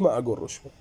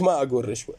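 First: رشوة as "rushwe", with short u; refused damma form. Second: رشوة as "rishwe", with short i; refused kasra form. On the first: (ما أقول رشوة بضم الراء) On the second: (ما أقول رشوة بكسر الراء) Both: Acted. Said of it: "قلت".

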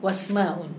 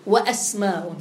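First: "واسماء" run together as "wasma", no glottal stop; wrongly dropped hamza. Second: "وأسماء" as "wa-asma", glottal stop after waw; sounded original hamza. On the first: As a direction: slide from waw straight into s in "واسماء". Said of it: "ولا تقول". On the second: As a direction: keep the hamza distinct in "وأسماء". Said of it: "الهمزة تكون أصلية مثل أسماء". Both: Shown as a demonstration.

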